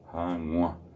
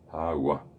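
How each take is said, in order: First: The g sound is nasal. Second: The g sound is plain and oral. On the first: The speaker calls it right. "el ejemplo que puse de Hanua" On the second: The speaker calls it wrong. "Si yo no le pongo la G nasal, va a decir"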